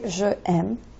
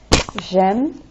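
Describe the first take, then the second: First: The vowel of je is pronounced separately. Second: The vowel of je is dropped and runs on. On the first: The speaker calls it wrong. "you don't say je aime" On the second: The speaker calls it right. "You use that apostrophe so that it just slides"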